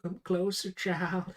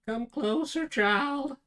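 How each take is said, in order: First: Raised, louder put-on call; mock summons. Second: Much higher, loud theatrical call; hammed-up summons. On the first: Calling a child closer in play, theatrical summons. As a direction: playfully beckon in a theatrical voice. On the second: Calling a child closer in play, hammed-up loud summons. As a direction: escalate into a big, high put-on voice. Playful summons repeated, far bigger.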